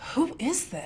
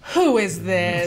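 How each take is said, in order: First: It sounds a little frustrated. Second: It sounds confident, like knowing the answer.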